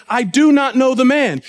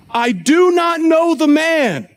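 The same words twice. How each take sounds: First: Firm, mildly emphatic denial; escalating denial. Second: Slow, higher-pitched, emphatic oath; sworn denial. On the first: Peter denies knowing Jesus a second time, firmly. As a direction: deny it outright, at a normal pace. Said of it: "See how he escalates and goes further". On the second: Peter swears to the bystanders, an emphatic final denial. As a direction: swear it, drawing out every word. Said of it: "invoke a curse on himself and to swear". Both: Acted.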